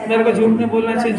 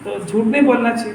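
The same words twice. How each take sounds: First: Quick recited rote line; mock learning by heart, fast; rote memorising. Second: Said in the usual way. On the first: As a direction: rattle it off like a memorised rule. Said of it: "ये याद करना शुरू किया". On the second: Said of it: "जिनवाणी ने कहा कि सत्य बोलना चाहिए".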